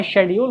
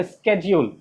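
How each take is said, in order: First: SCHEDULE starting with SH; familiar pronunciation. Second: SCHEDULE starting with SK; alternative pronunciation. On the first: Teacher accepts the students' form, शेड्यूल as "shed-yool". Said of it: "जो आप बोलते हैं". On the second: Teacher offers another form, स्केड्यूल as "sked-jool". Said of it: "एक pronunciation और है". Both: Shown as a demonstration.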